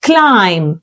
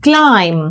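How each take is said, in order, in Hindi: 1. आखिरी b silent है। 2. आखिरी b silent है।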